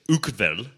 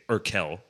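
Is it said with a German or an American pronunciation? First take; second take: German; American. First: It is said the German way. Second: It is said the American way.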